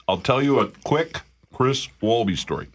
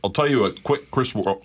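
First: Said in the usual way. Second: Talking through a mouthful of burger; words round a big bite; mouth full. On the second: Real, not acted. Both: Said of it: "my mouth is full".

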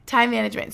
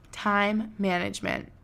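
First: Said in the usual way. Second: Time management said slowly, with space; slow it down on purpose. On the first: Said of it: "We're slowing down". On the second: Shown as a demonstration. Host slowing down after rushing, slow deliberate delivery. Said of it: "we're slowing down".

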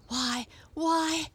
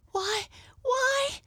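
First: High surprised exclamation from a cat; exclaiming cat. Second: Put-on very high little-girl exclamation; astonished girl's cry. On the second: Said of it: "cried Mabel". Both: A narrator's reading.

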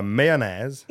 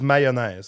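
First: Mayonnaise dicho despacio a la francesa; mayonnaise alargado, al estilo francés; French mayonnaise. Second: Mayonnaise como /maɪonaɪz/, vocales abiertas; mayonnaise pronunciado a la francesa; French mayonnaise. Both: Shown as a demonstration. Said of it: "In French, it's mayonnaise".

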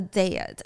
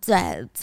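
First: Said in the usual way. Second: Dead, dropped low and final; dead stressed. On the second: Shown as a demonstration. Recapping the death to viewers, a low final dead. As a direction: let dead land low and heavy. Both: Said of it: "D E A D".

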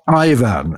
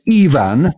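First: IVAN said EYE-vun, the English way; pronounced with eye. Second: IVAN said EE-van, first sound a long ee; pronounced with E. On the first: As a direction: say IVAN with a first sound like "eye". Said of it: "not Ivan, as you said earlier". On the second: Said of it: "is pronounced as E". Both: Shown as a demonstration.

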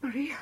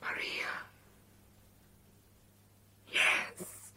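First: Puzzled, rising; surprised question. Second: Hushed, accepting the name; whispering. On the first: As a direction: ask it back, puzzled. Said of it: "But I've always been called Mary". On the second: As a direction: whisper it to yourself. She accepts her new name. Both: Acted.

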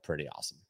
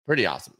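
First: Much softer, half to self; quiet aside. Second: Said in the usual way. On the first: Acted. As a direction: murmur it under your breath. Repeated remark, soft then louder.

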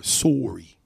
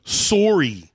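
First: Said in the usual way. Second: "Sorry" said high and loud with a drawn-out Canadian "sore-ee"; mock Canadian sorry. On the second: Host mocking how Canadians say "Sorry", in a drawn-out mock Canadian accent. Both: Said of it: "That's how they say sorry".

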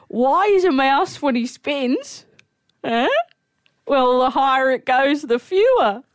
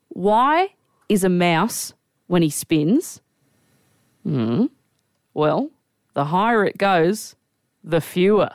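First: High-pitched, slow setup as an amateur comic; old fella's stage joke. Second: WHY drawn out, then "is a mouse when he spins" slow and spaced; deliberate joke delivery. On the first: Old fella telling his joke on stage, hopeful mock comic. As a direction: deliver the nonsense punchline higher, in earnest. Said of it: "This little old fella gets up on stage". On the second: [name] coaching his mate on the joke, slow and deliberate. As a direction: pause before "the fewer", like setting up a punchline. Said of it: "as long as you say it like that". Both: Retold or imitated.

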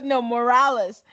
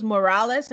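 First: "No, Morales" said slower and firmer, Morales leaned on; patiently repeating the name "Morales" with weight; corrective stress on Morales. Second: Said in the usual way. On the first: Retold or imitated. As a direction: correct her by slowing down on "Morales". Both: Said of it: "And he goes".

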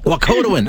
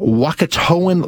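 First: Wakotoan as wah-KOH-doh-in, stress on KO; corrected pronunciation. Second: Wakatoan with the stress late, on TO; mispronounced name. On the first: Shown as a demonstration. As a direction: repeat Wakotoan with the stress moved to KO. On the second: Real, not acted. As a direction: say Wakatoan as wah-kuh-TOE-an, stressing TOE. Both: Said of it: "I had the emphasis on the wrong syllable".

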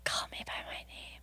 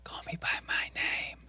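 First: Whisper. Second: Echoing ghostly whisper. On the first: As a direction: ghostly whisper. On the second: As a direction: whisper it back, unvoiced. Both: Retold or imitated. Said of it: "It's like a whisper".

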